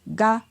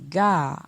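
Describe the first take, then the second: First: The syllable is said on a mid tone. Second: The syllable is said on a falling tone. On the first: "avec un ton moyen" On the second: "avec un ton descendant"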